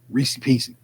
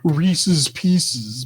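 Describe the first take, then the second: First: The first word ends without an added s sound. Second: The first word ends with an added s sound. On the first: "Reese Pieces still sound right to me though" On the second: "I understand it's probably it's Reese's Pieces"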